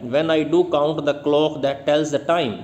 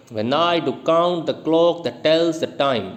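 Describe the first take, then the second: First: Said in the usual way. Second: Slow "When I do count the clock that tells the time", stressing I, count, clock, tells, time; da-DUM metre on "When I do count the clock that tells the time"; iambic scansion. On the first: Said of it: "ये line example के तौर पर दी है". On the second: Shown as a demonstration. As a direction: beat out "When I do count the clock that tells the time" in five weak-STRONG pairs. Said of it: "पहले को unstress और दूसरे को".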